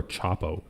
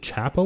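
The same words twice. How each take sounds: First: Chapo said as CHOP-oh; Chapo, first syllable rhyming with "top"; first vowel as in "chop". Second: Chapo said as CHAP-oh; Chapo, first syllable rhyming with "tap"; first vowel as in "chap". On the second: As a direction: say Chapo with a short a, as in cat. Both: Shown as a demonstration. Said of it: "is it Chapo or Chapo?".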